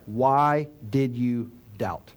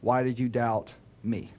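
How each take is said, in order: First: "Why did you doubt" slow, each word set apart; slow, spaced "Why did you doubt"; deliberate word by word. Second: "me" held back, then dropped low as the odd word out; low, measured question with "me" detached at the end; set-off "me". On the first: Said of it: "Jesus says". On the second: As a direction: set "me" apart after "doubt", low and separate. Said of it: "He did not say". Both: Shown as a demonstration.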